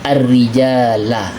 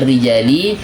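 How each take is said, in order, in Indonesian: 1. Kata itu berakhir dengan vokal a. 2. Kata itu berakhir dengan vokal i. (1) "yang dibolehkan adalah i'rab nasab fathah" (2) "Tidak boleh dibaca ar-rijali"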